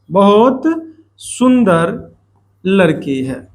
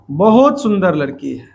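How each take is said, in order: First: बहुत set apart and lifted, pause before सुंदर and before लड़की है; stress on बहुत. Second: Said in the usual way. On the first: Shown as a demonstration. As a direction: slowly lay each word down, leaning on बहुत. ("बहुत" पर ज़ोर, हर शब्द के बाद ठहराव) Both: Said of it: "विशेषण पे जोर डालने वाला शब्द कौन है".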